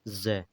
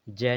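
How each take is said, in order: First: The word begins with a z sound. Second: The word begins with a j sound. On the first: The speaker calls it right. "ये अंका बिंदु भी होता है साथ में" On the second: The speaker calls it wrong. "जय नहीं"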